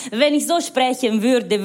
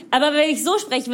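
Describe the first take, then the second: First: German with a put-on Italian accent; slow, lilting Italian-accented German. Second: Said in the usual way. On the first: Shown as a demonstration. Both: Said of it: "Weil ich akzentfrei Deutsch spreche".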